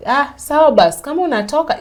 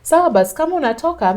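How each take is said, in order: First: Loud, higher, careless brush-off; husband waving her off, loud and dismissive. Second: Loud, high repeat of the brush-off; husband repeating it loud and careless; dismissive husband. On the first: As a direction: toss it off like you don't care. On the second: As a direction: shrug her off again, louder. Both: Retold or imitated. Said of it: "that's what he told me".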